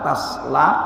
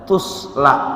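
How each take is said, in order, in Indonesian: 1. Vokal pertama adalah bunyi 'a' yang terbuka. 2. Vokal pertama adalah bunyi 'u' yang membulat. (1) "bisa dibaca fathah seperti yang sekarang tasla" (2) "bisa juga dibaca tusla"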